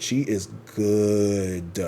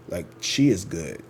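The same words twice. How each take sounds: First: "She is good" stretched very slow and drawn out; drawn-out praise. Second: Said in the usual way. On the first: Shown as a demonstration. Vlogger raving about a tarot reader, drawling "She is good" slowly. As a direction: linger on each word of "She is good". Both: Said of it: "She is amazing".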